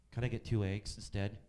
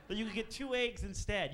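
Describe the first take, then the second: First: Lower, flat-toned mock customer; vague customer. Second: Higher, mocking incredulity; incredulous. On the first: Waiter imitating the woman asking for eggs, lower. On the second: Waiter scornfully echoing the egg request, higher. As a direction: repeat her words high and scornful.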